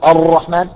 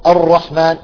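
Both takes have the same delivery.

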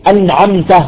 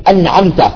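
The two takes are said the same way.

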